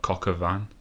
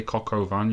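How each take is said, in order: First: "Coq au vin" run together as cock-a-van; "Coq au vin" heard as one rude-sounding word; accent-slurred pronunciation. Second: "Coq au vin" with a clear "oh" in the middle; "Coq au vin" in three separate syllables; intended French pronunciation. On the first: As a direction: say "Coq au vin" with the middle reduced to "uh". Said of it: "But it just sounds like". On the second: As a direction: say "Coq au vin" as cock-oh-van. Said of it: "'cause he's French and his name's". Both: Shown as a demonstration.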